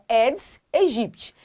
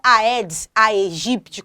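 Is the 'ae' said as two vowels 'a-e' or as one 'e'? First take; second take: e; a-e. First: The 'ae' is said as a single 'e' sound. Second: The 'ae' is said as two vowels, 'a-e'. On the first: The speaker calls it right. "Então é Aedes aegypti" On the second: The speaker calls it wrong. "não é Aedes aegypti, como você escuta muito por aí"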